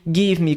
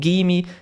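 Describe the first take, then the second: First: Both words are said fully and separately. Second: The words are blended into one short word.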